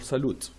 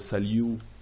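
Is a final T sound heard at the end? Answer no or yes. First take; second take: yes; no. First: The final T is pronounced. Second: The final T is silent. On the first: The speaker calls it wrong. "not ... salute. We never pronounce this T" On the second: The speaker calls it right. "So we pronounce it salut"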